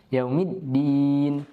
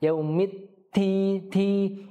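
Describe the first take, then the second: First: "yaumiddin" slow, double d held; slow "yaumiddin" with held dal. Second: "yaumid ti" slow with puffed t; slow mistaken "ti"; wrong breathy ta. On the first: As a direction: hold the d of "yaumiddin". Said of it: "yaumid ditahan". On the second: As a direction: show the mistaken airy "ti". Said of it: "ia bisa tertukar menjadi ta". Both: Shown as a demonstration.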